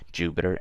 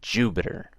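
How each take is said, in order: First: The word is said plainly, without extra emphasis. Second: The word is said with extra emphasis.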